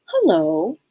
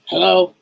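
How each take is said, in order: First: Lilting, friendly phone greeting; smiling hello. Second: Curt, unwelcoming phone hello; off-putting phone tone. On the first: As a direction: answer with an audible smile. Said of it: "You can tell they're smiling". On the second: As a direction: answer as if the call is unwelcome. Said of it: "Just the tone". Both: Acted.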